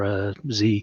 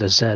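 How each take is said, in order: First: The letter is said as zee, North American. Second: The letter is said as zed, non-North American.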